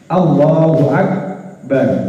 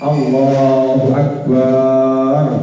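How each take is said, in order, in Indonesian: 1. Vokal setelah b dibaca pendek. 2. Vokal setelah b dibaca panjang. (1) "Harus pendek ba-nya" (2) "Nggak boleh kita baca ... ba-nya nggak boleh dibaca panjang"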